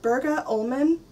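The name is read as English spelling suggests. "It looks like Bergå Ullman"

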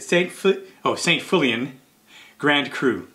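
The name is pronounced with English sounds. "Or to anglicize it"

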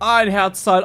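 It is said as an excited exclamation. The speaker is delighted by the find.

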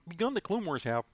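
It is said in a Kermit the Frog voice.

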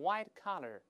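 Collar is said with an American accent. "美国人都是white collar"

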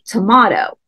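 Tomato is said in a British accent. "over in Great Britain, they say"

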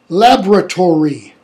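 The word is said in an American accent. "We say"

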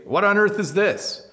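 The tone is sharp and harsh. The speaker is annoyed about the thing. "That's kind of a mean way to say it"

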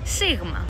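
It is pronounced the Greek way. The speaker calls it right. "It's sigma"

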